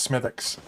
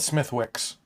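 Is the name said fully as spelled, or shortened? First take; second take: shortened; as spelled. First: The name is said in a shortened, spoken form. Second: The name is said fully, just as spelled.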